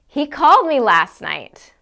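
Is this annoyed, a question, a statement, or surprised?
surprised. It is said in a surprised tone. The speaker did not expect him to call. "Or I can say it as if I'm surprised"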